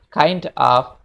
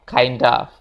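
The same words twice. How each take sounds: First: The two words are said separately. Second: The two words are linked into one. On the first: "kalau kita pengen bilang" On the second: "kita bisa ngomong"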